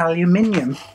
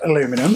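First: It is said the British way. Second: It is said the American way. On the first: This is the later, changed form of the name. "which is what we say in this country" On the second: This is the original form of the name. "at one point it was called aluminum"

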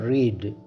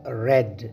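First: It is said with a long 'ee' vowel. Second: It is said with a short 'e' vowel. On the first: It is the present tense of the verb. "इस लफ्ज़ को हम pronounce करते हैं रीड" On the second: It is the past form of the verb. "लेकिन इसे pronounce रेड किया जाता है"

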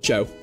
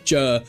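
First: The name is said in a non-Hull accent. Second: The name is said in a Hull accent. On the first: "But, Joe" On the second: "he's from Hull, so he calls himself Joe"

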